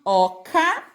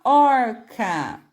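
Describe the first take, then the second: First: Said in the usual way. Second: "orca" with the R drawn out before "ca"; R puxadinho. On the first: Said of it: "perceber a diferença de oca". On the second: Shown as a demonstration. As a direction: stretch the syllable-final R in "orca". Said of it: "esse som puxadinho". ("orca" com o R puxadinho, alongado no fim da sílaba)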